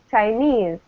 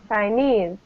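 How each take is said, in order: Both takes have the same delivery.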